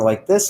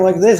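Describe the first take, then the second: First: The speech is slowest and most relaxed. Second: The speech is quick and rushed. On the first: "slow it down to like this a little bit" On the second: "if I'm talking like this"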